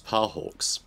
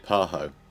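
First: The name ends in a 'ks' sound. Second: The name ends in a plain vowel. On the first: The speaker calls it right. "but it's Parhawks" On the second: The speaker calls it wrong. "I always used to say Parho"

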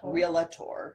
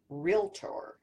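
First: It is said with three syllables, real-a-tor. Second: It is said with two syllables, real-tor. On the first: The speaker calls it wrong. "It's not realtor. ... There's no A there" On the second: The speaker calls it right. "It's realtor"

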